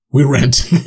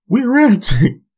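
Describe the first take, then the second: First: Said in the usual way. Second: Squeaky high mock voice, jokey; high cartoonish joke voice; silly high voice. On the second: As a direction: pitch way up into a goofy squeak on "We're renting". Punning ranting as renting.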